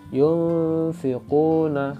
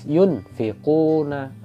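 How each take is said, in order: First: The n is blurred and hidden into the f. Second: The n is pronounced fully and clearly. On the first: The speaker calls it right. "maka dia dibaca samar" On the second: The speaker calls it wrong. "nggak boleh dibaca jelas yunfiquna, salah ya"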